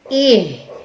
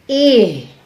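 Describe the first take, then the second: The two takes are said the same way.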